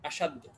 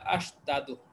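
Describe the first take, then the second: First: The two d sounds merge into one doubled d. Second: The two d sounds are separated by a vowel. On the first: This is the form used for easier pronunciation. "উচ্চারণের সুবিধার্থে এক দালকে আরেক দালের মধ্যে প্রবেশ করানো হচ্ছে" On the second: This is the underlying original form. "মূলত এইভাবে ছিল আশ দাদু"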